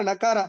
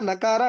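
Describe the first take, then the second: The two takes are said the same way.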